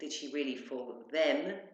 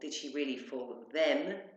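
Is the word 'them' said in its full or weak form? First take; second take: full; full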